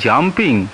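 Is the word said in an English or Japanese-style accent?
English. It is said with normal consonant clusters.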